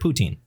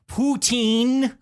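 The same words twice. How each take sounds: First: The final syllable is only lightly emphasized. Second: The final syllable is strongly emphasized. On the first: The speaker calls it right. "e at the end is not super emphasized" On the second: The speaker calls it wrong. "Not not poutine"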